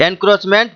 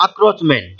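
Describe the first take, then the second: First: এনক্রোচমেন্ট opening with a clear "en"; en- pronunciation. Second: আক্রোচমেন্ট opening with "ak", no n; a- pronunciation. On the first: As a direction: say এনক্রোচমেন্ট with the n sounded before "kroch". (এনক্রোচমেন্ট, শুরুতে "এন" উচ্চারণ) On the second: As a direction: say আক্রোচমেন্ট with an open "a" straight into "kroch". (আক্রোচমেন্ট, শুরুতে "আ", ন ছাড়া) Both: Shown as a demonstration. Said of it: "উচ্চারণটা হবে".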